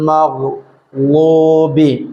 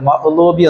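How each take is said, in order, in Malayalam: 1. നടുവിലെ വ്യഞ്ജനം ഗർഗരിച്ച gh ആണ്. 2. നടുവിലെ വ്യഞ്ജനം ഗ്ലോട്ടൽ സ്റ്റോപ്പ് ആണ്. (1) "ഗൈനായിട്ട് തന്നെ ഉച്ചരിക്കണം" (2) "ഹംസ കൊടുത്താണ്ട് സുക്കൂൻ കൊടുത്താണ്ട്"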